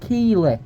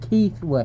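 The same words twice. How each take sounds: First: The name is said without a 'th' sound. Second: The name is said with a 'th' sound. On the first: The speaker calls it wrong. "not Keighley" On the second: The speaker calls it right. "like your Uncle Keith"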